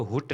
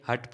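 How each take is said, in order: First: हुट with a short oo vowel; wrong pronunciation. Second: हट with a short uh vowel; correct pronunciation. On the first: Teacher warning learners off a misreading, wrong pronunciation हुट with oo. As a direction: say हुट, oo as in "put". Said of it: "हुट नहीं". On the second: Teacher correcting learners' reading, correct pronunciation हट with uh. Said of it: "हट पढ़ेंगे". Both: Shown as a demonstration.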